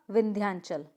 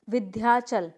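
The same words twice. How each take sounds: First: विंध्यांचल with n before chal; corrected pronunciation. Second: विंध्याचल without a nasal before chal; wrong pronunciation. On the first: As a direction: model विंध्यांचल as vindhyaan-chal. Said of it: "क्या होगा?". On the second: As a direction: demonstrate विंध्याचल as vi-dhyaa-chal. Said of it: "नहीं, क्या होगा?". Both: Shown as a demonstration.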